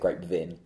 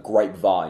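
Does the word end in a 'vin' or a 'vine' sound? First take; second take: vin; vine. First: The last syllable sounds like 'vin'. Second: The last syllable sounds like 'vine'. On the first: The speaker calls it wrong. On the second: The speaker calls it right.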